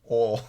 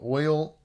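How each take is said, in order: First: It is said in one syllable, Southern. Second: It is said in two syllables, standard.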